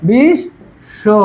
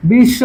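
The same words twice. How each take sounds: First: বিশ, শো as two separate beats with a pause between; teacher sounding out বিশ, then শো; split syllables. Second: বিশ্ব as "bish-sho", the sh doubled; doubled consonant. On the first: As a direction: break it apart to show the doubled sh: বিশ, pause, শো. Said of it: "এই যে হসন্ত". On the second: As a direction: model বিশ্ব holding the sh across both syllables. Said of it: "দুইবার উচ্চারণ হবে". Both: Shown as a demonstration.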